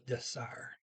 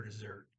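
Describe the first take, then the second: First: "desire" said as deh-SAR, T dropped; silent T. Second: Said in the usual way. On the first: Shown as a demonstration. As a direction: end "desire" on "ar" with no T. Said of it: "did not pronounce the T". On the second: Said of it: "or dessert".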